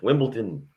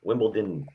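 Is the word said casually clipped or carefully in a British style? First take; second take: carefully British; carefully British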